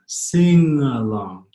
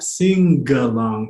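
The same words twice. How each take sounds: First: Slow "Sing along" with no hard g; "Sing along" slowly, soft sing-uh-long. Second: "sing along" as sing-GUH-long; hard G, wrong way. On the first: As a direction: draw out the ng in "Sing along", g melted away. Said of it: "the G is made soft by that N". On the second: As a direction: punch a heavy g into "sing along". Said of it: "Notice how it's not sing along". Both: Shown as a demonstration.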